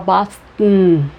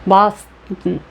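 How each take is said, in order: First: The second syllable has a reduced schwa vowel. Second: The second syllable has a reduced schwa vowel.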